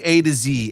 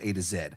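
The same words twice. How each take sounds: First: The last letter is pronounced 'zee'. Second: The last letter is pronounced 'zed'. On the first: This is how Americans say it. "We say A to Z" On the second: This is how everyone outside America says it. "Everybody else in the world says A to Z"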